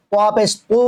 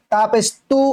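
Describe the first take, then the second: First: "তু" with a heavy t, vowel towards o; thick t. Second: "তু" with a light t and clear u; thin t. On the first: Teacher contrasts two t letters, thick heavy t. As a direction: fatten the "ত" of "তু" into a dark to. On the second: Teacher contrasts two t letters, thin t. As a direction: keep the "ত" of "তু" thin. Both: Shown as a demonstration. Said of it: "মোটা করে উচ্চারণ হবে".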